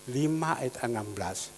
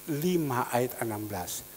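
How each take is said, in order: Both takes have the same delivery.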